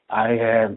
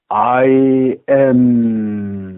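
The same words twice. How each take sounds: First: It is said weakly and limply. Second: It is said forcefully and arrogantly.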